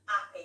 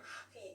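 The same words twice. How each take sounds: First: The H is dropped, starting on the vowel. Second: The H is pronounced strongly at the start. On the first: "You roll over that H and just go straight to the A" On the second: "quite strong on the syn- on the uh, consonants"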